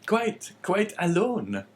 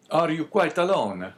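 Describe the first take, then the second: First: Slow, high-pitched innkeeper voice; innkeeper's reply. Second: Put-on higher Italian-accented priest. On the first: Man replying to his guest, high innkeeper voice. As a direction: echo it slowly in a high innkeeper voice. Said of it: "replied the man". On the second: Guest inquiring of his host, Italian accent. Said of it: "speaking with a strong Italian accent". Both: A narrator's reading.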